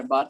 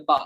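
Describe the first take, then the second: First: Said in the usual way. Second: "বা" with the final R dropped; British silent R. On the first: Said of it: "তারা এটাকে বার বলে না". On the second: Shown as a demonstration. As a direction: say "বা" as British "bah", no R. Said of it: "তারা বলে বা". ("বা", শেষে র উচ্চারণ ছাড়া)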